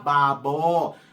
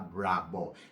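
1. Nagsisimula ito sa simpleng B at may tunog na B. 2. Nagsisimula ito sa BR at may tunog na V. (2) "Pag binasa ko siya"

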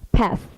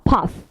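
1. 미국식 발음으로 말합니다. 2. 영국식 발음으로 말합니다.

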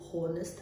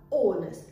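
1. Слово начинается со слышимого звука h. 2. Слово начинается сразу с гласного звука. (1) "не «honest»" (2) "а «honest»"

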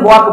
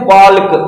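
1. इस शब्द में L साइलेंट है। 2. इस शब्द में L बोला जाता है। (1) "एल जो है ना साइलेंट होता है, तो हम इसे वॉक बोलेंगे" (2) "इसे लोग प्रोनाउंसिएशन करते हैं बाल्क, बाल्क नहीं होता है"

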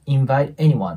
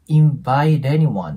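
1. invite の後で区切って、2語に分けます。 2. 単語は繋がって、tがラ行っぽい音になります。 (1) "区切ってもらってOK です" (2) "リンキングしてラ行っぽくなります"

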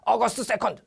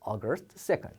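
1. 무뚝뚝하고 건조하게 말합니다. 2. 부드럽고 따뜻하게 말합니다. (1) "이게 아니라" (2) "부드럽게 얘기합니다"

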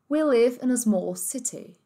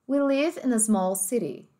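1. Ela é dita com sotaque do inglês britânico. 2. Ela é dita com sotaque do inglês americano. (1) "Britânico"

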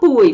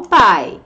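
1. A vogal segue a escrita, como 'bu-i'. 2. A vogal é um único som deslizante 'ai'. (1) "mas não fala buy" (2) "fala buy. É assim que a gente fala em inglês"

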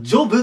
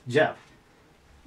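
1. 母音は丸めた'oh'のように聞こえます。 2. 母音は開いた'ah'のように聞こえます。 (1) "日本語で言うと、ジョブって言いたくなるんですよね。" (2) "発音はジャですね。ジャブとなります。"

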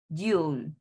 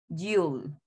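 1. Se dice como una sílaba contraída. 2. Se dice como una sílaba contraída.

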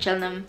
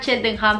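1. Se omiten varias letras del nombre. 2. Se pronuncian todas las letras del nombre. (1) "acá le dicen Cheltenham. Idea, los ingleses que se comen la mitad de las letras" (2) "En realidad se llama Cheltenham"

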